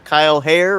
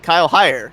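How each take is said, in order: First: The surname rhymes with hair. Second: The surname rhymes with higher. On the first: The speaker calls it wrong. "I'm still not saying them correctly" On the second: The speaker calls it right. "Actually, it's higher. There we go"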